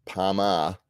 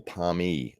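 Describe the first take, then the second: First: "Parma" with a full ah ending; deliberate "Parma", ending on ah; regional form. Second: "Parmy" with an ee ending; deliberate "Parmy", ending on ee; shortened form. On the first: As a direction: say "Parma" as par-mah, set apart. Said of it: "they call it a Parma". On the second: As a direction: say "Parmy" as par-mee, set apart. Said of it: "or Parmy". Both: Shown as a demonstration.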